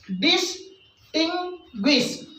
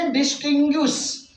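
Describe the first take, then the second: First: "distinguish" slowly broken into three separate beats; split into syllables. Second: Said in the usual way. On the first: Shown as a demonstration. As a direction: pause after डिस and after टिंग. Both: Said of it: "जहाँ पर हम शब्द पे रुकते हैं".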